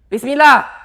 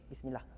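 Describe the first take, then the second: First: It is said loudly, almost shouted. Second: It is said in a very low voice.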